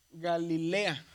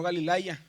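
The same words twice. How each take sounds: First: "Galilea" with a clear E before the final A; stressed LE in Galilea, no "ay" sound; AI read as E. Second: "Galilaya" with an "ay" glide before the final A; AI read as written. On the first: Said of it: "aquí la pronunciación es como una E". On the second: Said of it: "y no Galilaya". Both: Shown as a demonstration.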